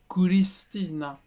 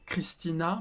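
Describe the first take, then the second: First: The name is said with Japanese pronunciation. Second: The name is said with French pronunciation. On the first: "en japonais, ça fait Christina" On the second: "en français, je dis Chris, Christina"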